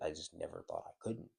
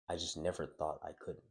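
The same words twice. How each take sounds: First: It is said in a musing, unassuming tone. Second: It is said in a flat, matter-of-fact tone. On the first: The speaker calls it right. "He said it in a more of like" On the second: The speaker calls it wrong. "in the same way that I'm saying it"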